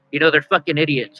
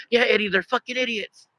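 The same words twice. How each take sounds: First: Said in the usual way. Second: Higher, softer imitation of a companion chiming in; Johnny. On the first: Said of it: "And I said". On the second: Companion behind agrees with the fed-up dog owner, high soft mimicry. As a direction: echo it from behind in a high, small voice. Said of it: "Johnny behind me is like".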